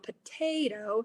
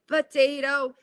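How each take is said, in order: First: The middle syllable carries the main stress. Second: All three syllables get equal, effortful stress.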